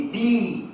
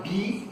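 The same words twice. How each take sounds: First: "bee" with a long drawn-out ee; long English vowel. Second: "be" with a short, clipped vowel; short English vowel. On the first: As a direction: stretch the ee of "bee", the insect. ("bee" com vogal longa, abelha) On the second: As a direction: say "be" short, the verb. ("be" com vogal curta, verbo ser) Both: Shown as a demonstration. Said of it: "Tem uma diferença do verbo ser para abelha".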